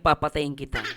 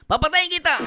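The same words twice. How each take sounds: First: It is said in a calm, gentle tone. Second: It is said in a harsh, brutal tone. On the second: "May pagka-brutal"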